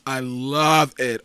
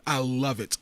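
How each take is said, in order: First: "I love it" slow and louder, leaning on "love"; slow, weighty "I love it"; drawn-out emphatic. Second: Said in the usual way. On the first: Real, not acted. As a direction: stretch "love" to really mean it. Repeated for emphasis.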